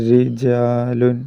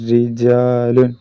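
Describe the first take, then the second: No difference in how they are said.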